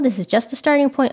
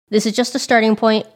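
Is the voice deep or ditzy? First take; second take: ditzy; deep. First: It is said in a light, ditzy voice. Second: It is said in a deeper, serious voice. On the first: The speaker calls it wrong. "her voice is not like that. ... she doesn't talk like a ditz" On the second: The speaker calls it right. "She's actually got a deep voice too, ... so let me imitate differently"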